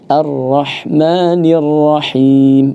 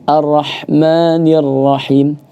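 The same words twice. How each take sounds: First: It is read unhurriedly with doubled consonants held. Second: It is read hurriedly with doubled consonants shortened. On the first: The speaker calls it right. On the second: The speaker calls it wrong.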